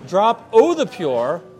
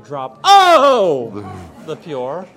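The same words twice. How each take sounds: First: It is said in the speaker's normal voice. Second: It is said in an exaggerated put-on voice.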